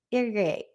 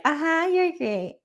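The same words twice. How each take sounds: First: Said in the usual way. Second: Slow, higher, mock-sweet uh-huh; fake enthusiasm. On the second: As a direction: humour him with a hollow compliment. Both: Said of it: "she's just like".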